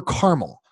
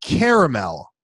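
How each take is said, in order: First: Caramel said as kar-mel, two syllables. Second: Caramel said as kehr-uh-mel, three syllables. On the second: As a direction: give caramel its full middle A. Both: Shown as a demonstration. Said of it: "Or caramel".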